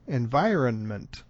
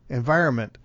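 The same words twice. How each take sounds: First: The middle N is pronounced fully and strongly. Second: The middle N is dropped completely. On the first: "to overdo it, environment would sound extremely odd also" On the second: "if you drop the N entirely out of there"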